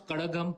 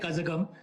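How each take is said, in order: First: The middle consonant has the native Tamil sound. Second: The middle consonant is said as a plain z. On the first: The speaker calls it right. "who can pronounce Kadagam properly" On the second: The speaker calls it wrong. "We don't say Kazagam"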